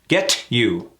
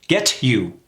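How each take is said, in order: First: The T is pronounced clearly before you. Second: The same.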